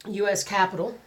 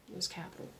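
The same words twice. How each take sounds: First: Said in the usual way. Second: Soft unvoiced whisper. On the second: Shown as a demonstration. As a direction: breathe it out in a whisper. Repeats title two ways.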